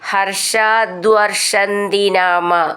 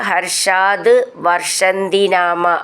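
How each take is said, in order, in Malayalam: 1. ആദ്യ രണ്ട് വാക്കുകൾ ഇടവേളയില്ലാതെ ചേർന്ന് പറയുന്നു. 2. ആദ്യ രണ്ട് വാക്കുകൾ ഇടവേള നൽകി വേർതിരിച്ചാണ് പറയുന്നത്.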